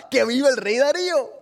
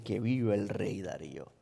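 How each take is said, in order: First: Proclaiming officials. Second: Low, soft, oily praise of the king; fawning flattery. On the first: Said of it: "y ahí estaba". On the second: Officials flattering the king, low oily praise. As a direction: lay it on thick for the king. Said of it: "le dicen". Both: Retold or imitated.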